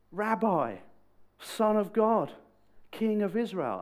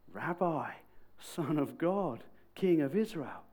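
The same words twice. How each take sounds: First: Loud, high proclamation; exclaiming. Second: Higher, measured declaration; proclaiming. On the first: Nate responding to his supernatural encounter, loudly exclaiming. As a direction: cry out each title in wonder. Nate's awed response after ditching cynicism. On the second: Nate proclaiming who the guy from Nazareth is, measured. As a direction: set out each title with pauses between. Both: Retold or imitated.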